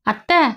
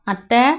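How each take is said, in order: First: Put-on higher, rising call of a small girl; little girl calling higher. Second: Said in the usual way. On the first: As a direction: call out to auntie again, higher. Child calls her aunt again. (அத்தையை மீண்டும் உயர்ந்த குரலில் அழைக்கும் சிறுமி)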